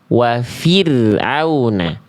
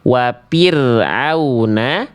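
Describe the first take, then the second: First: The consonant after wa is a breathy f sound. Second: The consonant after wa is a closed p sound. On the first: The speaker calls it right. "tapi kita baca" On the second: The speaker calls it wrong. "Nggak kita baca"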